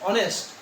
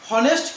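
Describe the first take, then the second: First: The word begins with a vowel sound. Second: The word begins with an h sound. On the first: The speaker calls it right. "উচ্চারণের সময় কি আসে অনেস্ট, অ" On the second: The speaker calls it wrong. "হনেস্ট কে বলি না আমরা"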